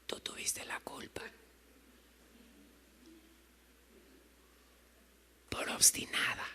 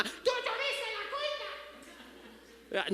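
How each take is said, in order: First: Hushed, unvoiced whisper; soft whispered reproof from God; gentle whisper. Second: Very high, small-volume squeal; caricatured high-pitched scolding; mock nagging mom. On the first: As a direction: whisper it softly with long pauses. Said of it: "no te lo dice gritando". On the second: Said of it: "no te lo dice como tu mamá".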